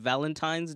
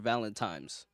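First: The middle consonant is an N sound. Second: The middle consonant is an M sound. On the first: Other people said it this way. "people just said Valentine's Day" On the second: The speaker heard it this way as a child. "I would hear Valentine's"

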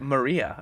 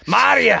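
First: It is said in a plain accent. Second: It is said in a Scottish accent.

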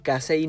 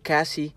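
First: The name ends in an 'ay' sound. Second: The name ends in an 'ee' sound. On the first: The speaker calls it right. "realmente se dice Kasei" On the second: The speaker calls it wrong. "no Kasi"

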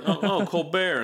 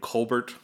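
First: The name is said with a French pronunciation. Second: The name is said with an English pronunciation. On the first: "it's awfully French saying it like that" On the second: "the right way to say your last name Colbert?"

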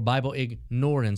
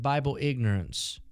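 First: Ignorance is said like ignore-ance, stressing ignore. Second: Ignorance is said the usual way.

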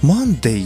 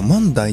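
First: The last vowel sounds like 'day'. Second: The last vowel sounds like 'die'.

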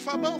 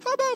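First: It is said in his normal voice. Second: It is said in a put-on little voice.

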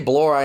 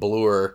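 First: The vowel sounds like the one in 'more'. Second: The vowel sounds like the one in 'blew'. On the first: "You say Blore" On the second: "Either just like blew it"

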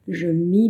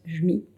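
First: It is said slowly and fully. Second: It is said fast and reduced.

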